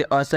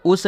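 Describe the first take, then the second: First: अस with a short "uh" vowel; correct reading of US. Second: उस with an "oo" vowel; wrong reading of US. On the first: Teacher giving learners the right reading, अस as "uhs". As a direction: say अस as "uhs", lower pitched. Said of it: "इसे आपको क्या पढ़ना है". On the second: Teacher warning learners off a misreading, उस as "oos". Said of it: "नहीं पढ़ना है". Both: Shown as a demonstration.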